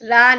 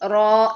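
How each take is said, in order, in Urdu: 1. یہ حرف علت ہلکا، کھلا 'a' ہے۔ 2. یہ حرف علت بھاری، گول 'o' ہے۔ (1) "را نہیں" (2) "رو ایسے پڑھیے"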